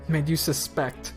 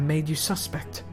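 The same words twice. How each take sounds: First: The stress is on the second syllable of suspect. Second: The stress is on the first syllable of suspect. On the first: It means to doubt someone. The speaker calls it right. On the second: It sounds like the noun, a person suspected. The speaker calls it wrong.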